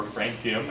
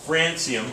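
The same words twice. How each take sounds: First: "francium" with a k sound in the middle; British-style pronunciation. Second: Said in the usual way. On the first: Shown as a demonstration. Lecturer showing students the English way, British-style pronunciation. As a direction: say "francium" as frank-ee-um, softer. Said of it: "as the English would say".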